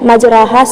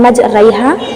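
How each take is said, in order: First: The vowel after r is a plain long 'a'. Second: The vowel after r leans toward 'ai'. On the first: The original form without any leaning of the vowel. "मजराहा से अलिफ या से बदल गया" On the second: The vowel is tilted partway, the lesser imala. "तो बन गया मजरैहा"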